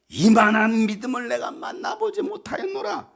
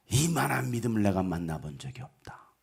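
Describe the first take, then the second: First: High-pitched proclamation of admiration; amazed praise. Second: Low, soft admiration; hushed praise. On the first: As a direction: marvel aloud, ringing it out. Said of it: "이런 칭찬받는 여러분". (감탄하며 높게 칭찬) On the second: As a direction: marvel quietly, almost to himself. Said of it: "이 칭찬이 여러분을 향하여". (낮고 조용히 감탄하며 칭찬) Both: Acted.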